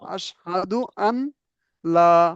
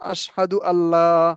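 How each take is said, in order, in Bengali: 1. n ধ্বনিটি আলাদা 'la'-এর আগে উচ্চারিত হয়। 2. n ধ্বনিটি মিশে দ্বিত্ব l ধ্বনি হয়ে যায়। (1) "যখন আলাদা পড়বো আশহাদু আন লা" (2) "যখন আমরা একসাথে পড়বো তখন হবে আশহাদু আল্লাহ"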